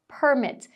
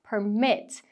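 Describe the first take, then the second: First: The stress is on the first syllable. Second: The stress is on the second syllable. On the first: It is a noun. "os substantivos... vão ter a sílaba tônica marcada ali na primeira" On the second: It is a verb. "Para os verbos, a sílaba tônica vai ser a segunda"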